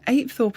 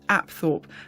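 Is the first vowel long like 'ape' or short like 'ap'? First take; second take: long; short. First: The first vowel is long, like 'ape'. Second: The first vowel is short, like 'ap'. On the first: This is how people from the area say it. "the local pronunciation of Apethorpe" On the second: This is the form given by a reference source. "According to Wikipedia, Apethorpe is pronounced Apthorpe"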